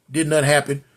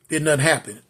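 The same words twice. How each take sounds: The two takes are said the same way.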